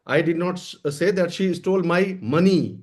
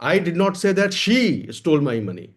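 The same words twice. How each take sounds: First: The stress falls on the word money. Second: The stress falls on the word she. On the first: She stole something other than money. "कोई और चीज चुराई है।" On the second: Someone else may have stolen the money. "पैसा चोरी हुआ है लेकिन मैंने ये नहीं कहा कि उसने चुराया है।"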